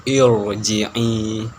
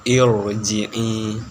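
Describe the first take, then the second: The two takes are said the same way.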